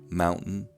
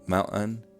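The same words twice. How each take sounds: First: The glottal stop is released through the nose. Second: The glottal stop is released through the mouth. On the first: This is the general American way. "General American pronunciation releases glottal stops nasally" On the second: This is the way heard in Utah. "in Utah is that glottal stops are released orally"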